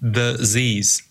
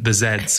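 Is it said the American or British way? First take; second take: American; British. First: The letter is said the American way, zees. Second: The letter is said the British way, zeds.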